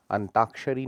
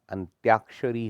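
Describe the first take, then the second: First: अंताक्षरी as "antaakshari"; wrong, no y. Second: अंत्याक्षरी as "antyaakshari", loud; correct y glide. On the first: Teacher showing the error, अंताक्षरी without y. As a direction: go straight from t to aa in अंताक्षरी. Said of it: "नहीं होता". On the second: Teacher correcting it, अंत्याक्षरी with a clear y. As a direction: put a y after t in अंत्याक्षरी. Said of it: "होता है". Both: Shown as a demonstration.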